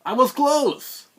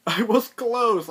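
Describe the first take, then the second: First: Much higher and louder, slow yell; mock frustrated yell. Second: Much higher and louder, laughing through it; laughing yell. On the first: Narrator reliving his wrong guess, slow loud yell. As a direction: shout out the near miss. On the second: Retold or imitated. Narrator reliving his wrong guess, laughing yell. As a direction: yell it again while laughing. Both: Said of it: "So I'm like".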